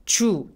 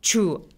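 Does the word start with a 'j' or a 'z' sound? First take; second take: j; j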